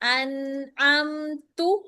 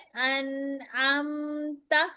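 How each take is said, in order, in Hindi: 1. अंतिम अक्षर 'u' स्वर पर खत्म होता है। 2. अंतिम अक्षर 'a' स्वर पर खत्म होता है। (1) "ता पेश तू" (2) "लिखा हुआ है"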